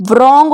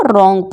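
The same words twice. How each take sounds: First: रॉन्ग begun with a V/W sound, "vrong"; wrong pronunciation. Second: रॉन्ग starting on R, silent W; no V or W before R in रॉन्ग; correct pronunciation. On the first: Teacher showing the mistake, रॉन्ग said as "vrong". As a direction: put a V before the R in रॉन्ग. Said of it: "हो जाता वरना ये". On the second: Teacher giving the fix, रॉन्ग with silent W. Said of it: "इसीलिए इसको रॉन्ग पढ़ते हैं". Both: Shown as a demonstration.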